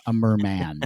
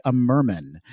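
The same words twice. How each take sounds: First: Merman with a full "man" at the end. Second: Merman with a weak, reduced second syllable; merman like a surname. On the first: Shown as a demonstration. Correcting the [name] mix-up, merman with a full "man". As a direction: say merman as "MUR-MAN", both syllables clear. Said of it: "Not [name], uh, a merman". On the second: Real, not acted. Reading a listener's theory, merman said like [name]'s surname. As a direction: say merman as "MUR-mun", like the surname.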